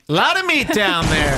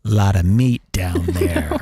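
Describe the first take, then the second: First: Higher-pitched mock reaction; acted exclamation. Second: Low, slow, drawn-out appraisal; guy's private remark. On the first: Red-blooded guy reacts to a bikini picture, higher exclamation. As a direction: lift it up out of your usual voice. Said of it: "And I'll say". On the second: Acted. Red-blooded guy scrolling Instagram thinks to himself, low slow aside. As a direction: sink deep and take your time. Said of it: "I'll say this in my head".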